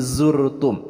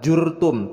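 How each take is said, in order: First: The word begins with a z sound. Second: The word begins with a j sound. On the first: The speaker calls it right. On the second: The speaker calls it wrong. "jangan tertukar dengan pelafalan huruf ja. Bukan"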